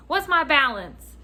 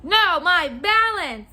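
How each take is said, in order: First: Lightly voiced customer, raised pitch; a hint of an impatient customer asking; voiced customer question. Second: Slow, loud, high "No, my balance", each word leaned on; insistent correction. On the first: Customer asking the clerk for his balance, lightly impatient. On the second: Retold or imitated. Customer correcting the clerk about his balance, insistent stress on "balance".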